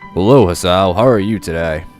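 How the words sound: It is said in a put-on gruff voice.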